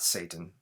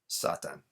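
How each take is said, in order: First: The name is said with English pronunciation. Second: The name is said with Japanese pronunciation. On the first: The speaker calls it wrong. "Not Satan" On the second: The speaker calls it right. "I will say that correctly"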